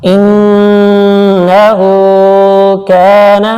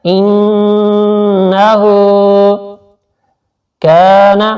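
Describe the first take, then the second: First: إِنَّهُ with the nn held long through the nose; slow chanted ghunna on إِنَّهُ; nasal ghunna. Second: إِنَّهُ held long with nasal nn and a stretched hu; recited ghunna on إِنَّهُ; nasal ghunna, drawn out. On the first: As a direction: hum the noon in إِنَّهُ. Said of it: "ناک سے آواز نکالیں گے". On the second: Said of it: "الٹا پیش کو تھوڑا سا کھینچ". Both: Shown as a demonstration.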